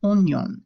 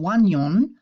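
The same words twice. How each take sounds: First: "oignon" as on-yon, no w; "oignon" pronounced as if spelt ognon; silent i. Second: "oignon" mispronounced as wan-yon; "oignon" with O I read as wa; wrong wa sound. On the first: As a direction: start "oignon" on a plain o, then ny. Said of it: "we're saying oignon". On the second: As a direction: start "oignon" with a stressed wa sound. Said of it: "we're not saying oignon". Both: Shown as a demonstration.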